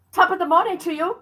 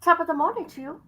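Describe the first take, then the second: First: Quick, higher Irish lilt on the greeting. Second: Fast, higher mock Irish lilt; Irish greeting. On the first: Retold or imitated. Greeting her friend in a playful Irish accent. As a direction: toss it off like a cheery Irish local. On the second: Repeating it for her friend in a mock Irish accent. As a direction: rattle it off in a jokey Irish accent. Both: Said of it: "That's Irish".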